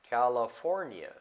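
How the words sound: The name is said with English pronunciation. The speaker calls it right. "In the United States"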